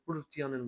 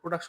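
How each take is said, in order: First: It is pronounced the German way, like Produktion. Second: It is pronounced the English way, like production. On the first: The speaker calls it right. "এটা প্রোডাকশন বলে" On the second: The speaker calls it wrong. "আমরা প্রোডাকশন বলি না"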